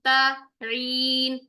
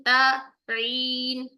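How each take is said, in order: No difference in how they are said.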